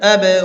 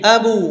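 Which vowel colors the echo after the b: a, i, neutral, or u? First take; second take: neutral; u. First: The echo after the b has a neutral vowel. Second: The echo after the b sounds like u. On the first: The speaker calls it right. "মাঝামাঝি" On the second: The speaker calls it wrong. "পেশ হয়ে গেল"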